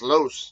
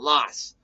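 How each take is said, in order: First: The vowel is a rounded 'oh' sound. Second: The vowel is an open 'ah' sound. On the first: The speaker calls it right. "L O S is pronounced Los" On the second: The speaker calls it wrong. "not Las"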